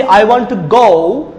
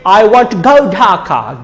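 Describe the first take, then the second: First: "go" as a plain long "o", slowly; Bangladeshi pronunciation. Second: "go" as a gliding British "goh-oo" before Dhaka; British pronunciation. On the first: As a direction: hold GO on one pure vowel, no glide. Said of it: "We say". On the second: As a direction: round off GO into a diphthong. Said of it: "The British say". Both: Shown as a demonstration.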